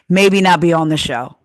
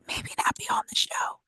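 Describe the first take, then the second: First: It is said noticeably louder than before. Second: It is said at a normal speaking volume.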